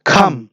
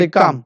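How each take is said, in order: First: "খাম" with a strongly aspirated kh; careful model of "খাম"; correct pronunciation. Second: "come" with an unaspirated k, kam; learner's hard-k "come"; common local pronunciation. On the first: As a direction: puff of air opening "খাম", set apart and lower. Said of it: "এটা হবে". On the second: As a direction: say "come" with no puff after k. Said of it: "আমরা বলি". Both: Shown as a demonstration.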